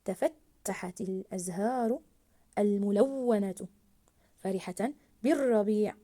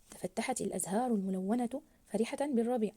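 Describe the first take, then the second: First: "تفتحت الأزهار الملونة فرحة بالربيع" very slow, doubled ت, و, ر held; stressed doubled letters. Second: Said in the usual way. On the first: Shown as a demonstration. Teacher reading with the shadda for pupils, stressed doubled letters. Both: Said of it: "الآن سنقرأ مع التضعيف".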